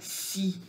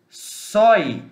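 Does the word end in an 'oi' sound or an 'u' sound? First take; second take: u; oi. First: The vowel is pronounced as a plain 'u'. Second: The vowel is pronounced as a diphthong 'oi'. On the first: The speaker calls it right. "eu vou ler si" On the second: The speaker calls it wrong. "em vez de eu ler sói"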